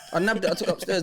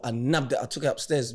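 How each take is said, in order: First: Higher and brighter, through a laugh; gleeful as you repeat the theft; laughing retelling. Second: Said in the usual way. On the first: Real, not acted. To friends about taking the snacks, a laughing higher retelling.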